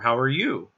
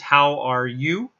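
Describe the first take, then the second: First: It is said in a relaxed, casual tone. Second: It is said in a stiff, formal tone. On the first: The speaker calls it right. "You would say something like" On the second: The speaker calls it wrong. "the formal pronunciation of it is"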